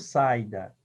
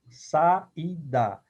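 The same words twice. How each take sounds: First: The a and i merge into one syllable. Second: The a and i are in separate syllables. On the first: The speaker calls it wrong. "eu não falo saída" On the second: The speaker calls it right. "eu separo"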